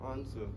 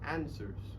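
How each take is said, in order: First: It is said with a British accent. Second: It is said with an American accent. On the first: "While in British, they tend to use, they change the mo- the the monophthongs and the diphthongs to answer" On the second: "So for American, they tend to pronounce the word answers with answers"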